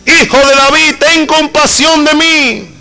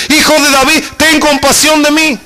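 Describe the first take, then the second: First: Crying out louder. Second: High pleading cry for mercy. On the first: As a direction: stretch every word as if the last chance. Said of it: "él gritaba mucho más fuerte". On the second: Preacher voicing the blind beggar crying out to Jesus, high pleading call. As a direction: lift the voice and beg to be heard. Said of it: "se puso a gritar". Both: Retold or imitated.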